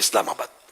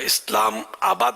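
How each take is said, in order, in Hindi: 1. 'aa' बिना लंबा किए सहजता से जुड़ा हुआ है। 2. लंबा 'aa' खिंचा हुआ है, जिससे शब्द बीच से टूट जाता है। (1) "सही तलफ़ुज़ भी है" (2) "मद बोलने की जरूरत नहीं है"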